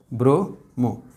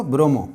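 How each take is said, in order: First: Slower softer repeat. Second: Said in the usual way. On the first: Shown as a demonstration. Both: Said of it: "आप क्या बोलेंगे इसको?".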